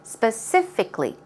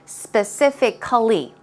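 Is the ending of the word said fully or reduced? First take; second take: reduced; full. First: The ending is said short and reduced. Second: The ending is said with every letter sounded. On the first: The speaker calls it right. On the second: The speaker calls it wrong.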